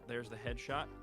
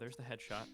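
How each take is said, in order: First: It is said with lively, excited energy. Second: It is said flatly with little energy. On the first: The speaker calls it right. "make that more exciting" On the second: The speaker calls it wrong. "If I just talk like this"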